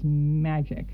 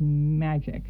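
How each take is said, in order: First: The word is said in an imitated movie tone. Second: The word is said in an imitated movie tone.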